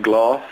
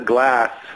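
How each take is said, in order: First: The vowel is an open 'ah' sound. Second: The vowel is not an open 'ah' sound. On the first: This is how the other person says it. "you're saying gloss" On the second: This is the speaker's own way of saying it. "I say, that's a glass"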